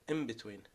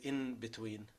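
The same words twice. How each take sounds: First: The n turns into an m sound. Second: The n stays a clear n sound. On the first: The speaker calls it right. "you say in between. ... You change the N into M" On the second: The speaker calls it wrong. "You don't say in between"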